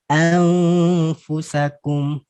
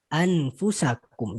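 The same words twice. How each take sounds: First: The n is hidden with a nasal hum. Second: The n is pronounced clearly.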